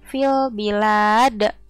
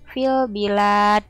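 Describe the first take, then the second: First: The final consonant is released with an echoing bounce. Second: The final consonant is held with no echoing bounce. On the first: The speaker calls it right. "Jadi ada pantulannya. Tidak ditahan" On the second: The speaker calls it wrong. "itu kan gak ada pantulannya ya"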